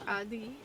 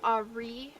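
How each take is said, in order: First: The r is a light tap like d. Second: The r is a plain English-style r. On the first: The speaker calls it right. "it's like adi" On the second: The speaker calls it wrong. "you don't go ari"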